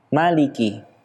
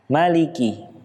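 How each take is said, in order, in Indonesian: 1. Vokal setelah m itu pendek. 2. Vokal setelah m itu pendek.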